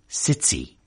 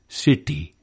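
First: The t is affricated with a hissing release. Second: The t is unaspirated with the tongue curled back. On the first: "affricated, to use the jargon, in Liverpool city" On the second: "unaspirated and retroflex in Indian city"

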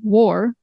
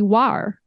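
First: The vowel is a rounded 'o' sound. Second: The vowel is an open, unrounded 'ah' sound. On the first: This is the modern pronunciation. "is pronounced with an O sound" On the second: This is the older pronunciation. "it used to be war"

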